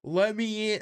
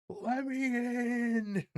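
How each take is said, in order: First: Higher, louder pleading yell; Eric Andre meme. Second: Very high, slow plea; high falsetto plea. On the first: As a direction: yell to be let in. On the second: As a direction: whine it slowly in falsetto. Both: Retold or imitated. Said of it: "Eric Andre meme".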